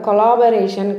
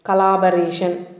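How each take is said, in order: First: The first syllable is a full 'co' sound. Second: The first syllable is a reduced 'cuh' sound. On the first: The speaker calls it wrong. "సిఓ అనగానే కో అనద్దు, wrong pronunciation. ... కొలాబరేషన్ కాదు" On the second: The speaker calls it right. "కలాబరేట్ అని పలకాలి"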